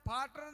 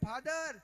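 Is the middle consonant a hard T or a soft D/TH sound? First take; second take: hard T; soft D/TH. First: The middle consonant is a hard T sound. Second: The middle consonant is a soft D sound. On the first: The speaker calls it wrong. "फाटर नहीं" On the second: The speaker calls it right. "ने फादर के"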